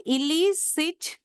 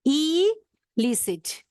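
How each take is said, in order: First: Illicit said slowly, syllable by syllable, as il-LI-cit; pronunciation demo. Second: Illicit drawn out very slowly, LI pressed as il-LI-cit; stress on second syllable. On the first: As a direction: spell out illicit slowly with stress on LI. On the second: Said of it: "we have to give a stress on the second syllable". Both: Shown as a demonstration.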